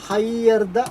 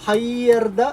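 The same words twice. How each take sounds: No difference in how they are said.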